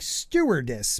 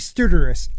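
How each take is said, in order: First: The word is said slowly and carefully. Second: The word is said quickly and runs together. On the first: "If I slow down, I say it like" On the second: "if I say it fast"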